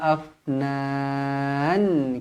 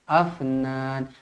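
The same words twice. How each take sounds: First: The f is held still and breathy. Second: The f bounces with a slight vowel. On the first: The speaker calls it right. "Zawata afnan" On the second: The speaker calls it wrong. "Jangan afnan, afnan, tak nak"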